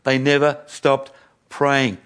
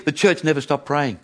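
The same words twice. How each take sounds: First: Slow, weighty, with space between words; slow emphatic repeat. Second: Said in the usual way. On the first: Real, not acted. Preacher repeats the key point to the congregation, slow and deliberate. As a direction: drive the point home slowly.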